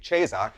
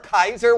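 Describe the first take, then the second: First: The word begins with a soft sound. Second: The word begins with a hard K sound. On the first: This is the later church form. "the ecclesiastical, which would be Caesar" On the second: This is the original classical form. "which is the original Latin pronunciation"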